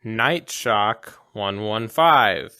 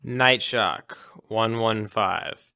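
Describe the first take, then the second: First: Each digit slow and even; slow spoken passcode. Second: Deliberate, slow code read; slow spoken passcode. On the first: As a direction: slowly say the code aloud. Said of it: "He spoke it into the receiver". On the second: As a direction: slowly spell out the code. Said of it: "and then spoke the code". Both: Pretend.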